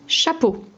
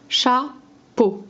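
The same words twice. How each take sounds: First: Said in the usual way. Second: "Chapeau" broken into cha, pause, peau; syllable by syllable. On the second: Shown as a demonstration. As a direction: say "Chapeau" as two detached syllables for a child. (« Chapeau » découpé : cha, pause, peau) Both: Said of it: "Enlève la deuxième syllabe".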